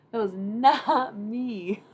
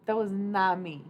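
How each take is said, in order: First: Slow, loud stress on "not"; "not" dragged long and hit hard; drawn-out emphatic denial. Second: Loud, startled disclaimer; loud amazed protest; shocked denial. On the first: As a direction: stretch "not" out in loud disbelief. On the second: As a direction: deny it in disbelief. Denying the voice crack. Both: Real, not acted.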